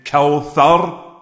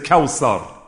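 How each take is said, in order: First: The middle consonant is a th sound. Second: The middle consonant is an s sound. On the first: "Instead of saying kawthar" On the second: "they may say a tha like a sin"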